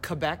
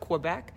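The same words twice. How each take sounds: First: The name is said the way locals say it. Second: The name is said in the everyday English way.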